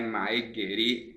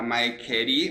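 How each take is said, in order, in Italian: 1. La seconda parola inizia con un suono g. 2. La seconda parola inizia con un suono k. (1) "ma è Mae Geri" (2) "Mae non diventa Mae Kerry"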